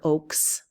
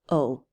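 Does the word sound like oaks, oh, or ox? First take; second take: oaks; oh. First: It has a long o and a final ks. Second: It has a long o and no final consonant. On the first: The speaker calls it wrong. "or oaks" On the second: The speaker calls it right. "It's just O, because these are silent"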